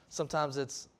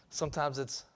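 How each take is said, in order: No difference in how they are said.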